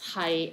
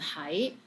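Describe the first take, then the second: First: It is said in the sixth tone. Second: It is said in the second tone. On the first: It means to be. "係 is in six tones" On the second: It means to be somewhere. "this one is in second tone"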